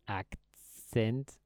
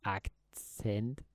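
Both takes have the same delivery.

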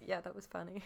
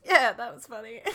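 First: Understated retold reply. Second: Loud, amused mock quote; Tony impression. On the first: Host imitates Tony answering his friend, soft and offhand. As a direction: toss it off quietly. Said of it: "And then Tony just goes". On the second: Imitating Tony answering the friend's teasing, loud and hammed-up. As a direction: punch the reply out loudly for comic effect. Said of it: "and Tony goes".

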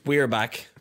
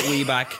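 First: Said in the usual way. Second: We back with no "are", dropped copula; wrong form. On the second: Shown as a demonstration. Showing friends the slangy Instagram wording, mocking. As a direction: say We back clipped, no "we're". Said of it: "So it's not".

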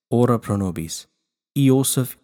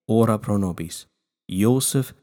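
Both takes have the same delivery.

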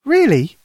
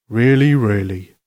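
First: Put-on high child's voice, wondering; questioning little girl. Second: Slow, steady Father Christmas voice; reassuring Santa. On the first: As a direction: ask it high, like an amazed small girl. Lucy asks Santa in wonder. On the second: Acted. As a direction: confirm it slowly as a kindly Santa. Santa confirms it to Lucy.

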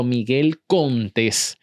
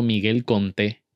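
First: "Miguel Contés" stretched very slowly, stress on -TÉS; very drawn-out "Miguel Contés", correcting a mishearing; emphasis on accented E. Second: "Miguel Conté" without the final S; misheard surname. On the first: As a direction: insist on "Contés" with a long, stressed É. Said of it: "por eso hago énfasis en la". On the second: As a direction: drop the S, ending "Conté" on the vowel. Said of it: "ellos pensaban que yo estaba diciendo". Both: Retold or imitated.

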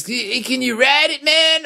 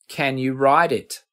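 First: Hammed-up Brooklyn accent, much higher and pushed up on man; a badly faked Brooklyn drawl, pitched way up. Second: Said in the usual way. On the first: Imitating [name] asking about the amp, bad Brooklyn accent. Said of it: "I'm doing a really bad Brooklyn accent". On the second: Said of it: "what he was actually asking was".

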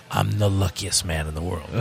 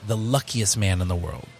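First: Low put-on character voice; father's commercial character. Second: Said in the usual way. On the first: Host voices father's line from their commercial, low character impression. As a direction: imitate dad's ad role, pitched down. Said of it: "And our father played".

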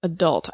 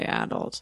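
First: "Adult" as uh-DULT; second-syllable stress. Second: "adult" as AD-ult, softly; first-syllable stress. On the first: Guest answering the quiz, "Adult" as uh-DULT. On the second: Guest quoting a disliked version, "adult" as AD-ult. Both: Shown as a demonstration. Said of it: "I hate when people say adult".

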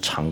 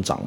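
First: 长 as "cháng", rising tone; first reading of 长. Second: 长 as "zhǎng", low dipping tone; second reading of 长. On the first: Teacher showing Chinese heteronyms, 长 read cháng. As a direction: say 长 with a ch sound, cháng. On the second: Teacher showing Chinese heteronyms, 长 read zhǎng. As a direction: say 长 with a zh sound, zhǎng. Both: Shown as a demonstration. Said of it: "中文也很多".

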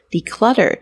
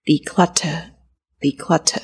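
First: Flick lightly past the T in "declutter", no puff of air; "declutter" said the American way, T barely released. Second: Declutter said slowly with a crisp, aspirated British T; "declutter" the British way, slow, T clearly released. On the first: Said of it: "就会比较像我刚刚念的". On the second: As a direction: puff air on the T in "declutter" and drop the final R. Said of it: "如果以Freya她的念法来说的话". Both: Shown as a demonstration.

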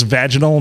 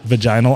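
First: "vaginal" as VAJ-uh-nul, stress up front; first-syllable stress on "vaginal", VAJ-in-ul; corrected pronunciation. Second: "vaginal" as vuh-JY-nul, stress on the middle; middle-syllable stress on "vaginal", vuh-JINE-ul; mispronunciation. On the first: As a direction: say "vaginal" with a short a, like "badge". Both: Shown as a demonstration. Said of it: "not vaginal".

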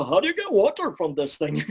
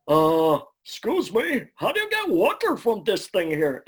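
First: Replayed Ed line. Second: High, loud goofy cartoon voice; the dim, cheerful Ed asking about water. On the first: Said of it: "I'd hear this". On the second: Actor at audition asks engineer in goofy high Ed voice. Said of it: "as Ed, I literally just went".

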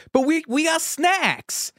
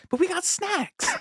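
First: Casey Affleck impression. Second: High squeaky whine, held back in volume; Casey Affleck impression. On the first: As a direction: squeal it like a kid defending the snacks. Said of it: "he just goes". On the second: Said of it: "running bit with us".

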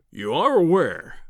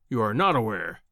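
First: Slow, raised stress on "are"; emphatic assertion. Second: Low-pitched, with stress on "not"; dismissive correction. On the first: Professor lecturing his visitor, stressing "are" emphatically. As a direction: lean hard and long on "are". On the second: Professor belittling his visitor's knowledge, stressing "not" dismissively. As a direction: sink lower and weight "not". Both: Acted.

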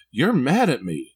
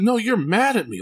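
First: Put-on slow, hurt little-kid voice; imitating his son. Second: Put-on much higher, insistent child voice; a little boy digging in his heels, high and firm; adamant son. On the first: Small son tells his dad he's mad, slow childlike voice. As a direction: mimic a small boy, slowed down and a bit louder. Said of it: "He said". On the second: Son insists to dad that he's mad, high adamant kid voice. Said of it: "Like, he was adamant".

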